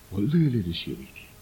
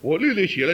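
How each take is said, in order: First: It is said in a humble, regretful tone. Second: It is said in a proud, boastful tone. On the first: The writer regrets being unable to express it fully. The speaker calls it right. "哎呀，可惜我写不出来" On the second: The writer boasts of deep insight. The speaker calls it wrong. "如果这样讲的确很骄傲啊"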